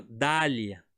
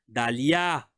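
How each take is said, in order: First: "Dália" with stress on the first syllable, Portuguese style; wrong pronunciation. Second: "Dalia" with the stress on the last syllable, French style; French pronunciation. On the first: Teacher showing students the wrong, Portuguese-style stress. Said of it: "tá vendo como que eu falo? Eu não falo Dália". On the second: Teacher showing students the correct French stress. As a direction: say "Dalia" landing on the final -LIA. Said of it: "eu falo Dalia". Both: Shown as a demonstration.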